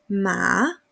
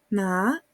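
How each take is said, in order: First: The pitch dips low, then rises. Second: The pitch rises from low to high. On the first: It means horse. "Tercer ejemplo" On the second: It means hemp. "el segundo ejemplo"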